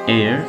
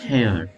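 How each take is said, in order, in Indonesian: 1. Kata ini diawali vokal, h tidak dibaca. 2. Kata ini diawali dengan bunyi h yang terdengar. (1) "tapi di sini dibacanya air" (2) "ini bukan dibaca hair"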